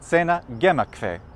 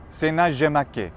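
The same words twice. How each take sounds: First: Latin spoken with a German pronunciation. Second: Latin spoken with a French pronunciation. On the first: "In Germany" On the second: "what about in France?"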